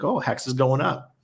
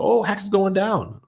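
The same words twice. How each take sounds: First: Lightly voiced young boy, rising at the end; a child's eager call-out; a hint of a kid watching the chart climb; imitating his son. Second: Put-on much higher childlike cry, falling at the end; a kid groaning as the chart drops; high, louder mock wail from a little boy; imitating his son, dismayed. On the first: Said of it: "He's like". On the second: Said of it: "And the second I start to go".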